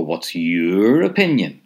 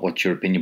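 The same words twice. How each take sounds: First: "What's your opinion?" slower and louder, leaning on "opinion"; slow down and press "opinion" with a falling end; emphatic. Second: Said in the usual way. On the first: Shown as a demonstration. Teacher showing learners the emphatic question, slow and firm. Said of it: "if you want to make it emphatic". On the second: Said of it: "so not".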